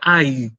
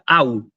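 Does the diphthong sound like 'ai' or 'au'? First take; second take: ai; au. First: The diphthong ends in an 'ee' sound. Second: The diphthong ends in an 'oo' sound. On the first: The speaker calls it wrong. "no se pronuncia ay" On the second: The speaker calls it right. "se pronuncia au"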